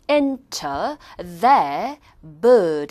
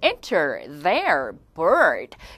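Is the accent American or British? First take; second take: British; American. First: The R sounds are dropped, British style. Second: The R sounds are pronounced, American style.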